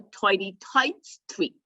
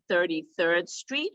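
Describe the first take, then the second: First: It is said in a strong regional accent. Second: It is said in a standard accent.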